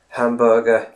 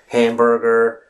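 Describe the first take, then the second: First: It is said with a British accent. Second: It is said with an American accent. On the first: "in the U K, you say hamburger or something like that" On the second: "in the United States, you say hamburger"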